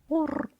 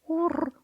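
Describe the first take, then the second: No difference in how they are said.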